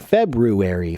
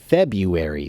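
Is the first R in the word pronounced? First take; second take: yes; no. First: The first R after the B is pronounced. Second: The first R after the B is dropped. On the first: This is the older way taught in the past. "they did teach me to say February" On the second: This is how almost everyone says it now. "they have removed the first R"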